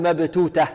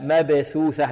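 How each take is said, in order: First: Both consonants are t sounds. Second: Both consonants are th sounds. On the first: The speaker calls it wrong. "لا نقول مبتوتة" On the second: The speaker calls it right. "عندنا هنا ثاءان"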